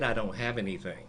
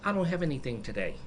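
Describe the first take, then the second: First: It is said in a sterner, firmer tone. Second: It is said in a plain, neutral tone.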